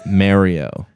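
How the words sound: Mario is pronounced in a Canadian way. "I used to say Mario ... because I'm Canadian"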